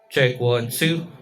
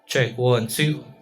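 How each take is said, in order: Both takes have the same delivery.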